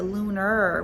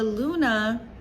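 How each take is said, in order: First: The word ends with an R sound. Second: The word ends without an R sound. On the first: It no longer sounds feminine. The speaker calls it wrong. "now they have the R, the lunar, which sounds so distorted" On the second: It keeps a feminine feel. The speaker calls it right. "notice I don't use the R at the end of the word Luna"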